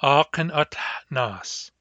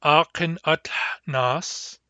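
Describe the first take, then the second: First: "Akin at nas," slow, with the pitch falling at the end; falling repeat. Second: "Akin at nas?" slow, with the pitch rising at the end as a question; rising question tune. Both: Shown as a demonstration. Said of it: "You can ask".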